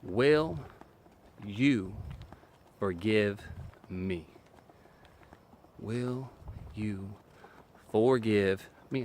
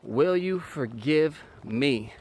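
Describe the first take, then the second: First: "Will" "you" "forgive" "me" each set apart by long pauses; deliberate pauses between every word of "Will you forgive me"; slow word-by-word. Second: "Will you forgive me" stretched out slowly; drawn-out humble request; slow sincere ask. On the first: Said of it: "You say these four words". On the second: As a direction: ask it slowly and let it land. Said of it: "stop talking". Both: Shown as a demonstration.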